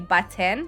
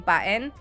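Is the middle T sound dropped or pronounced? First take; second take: pronounced; dropped. First: The middle T sound is clearly pronounced. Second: The middle T sound is dropped. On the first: This is how most people say it. "most people would say button" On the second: This is the speaker's own family-influenced way. "I say button ... I don't pronounce the T"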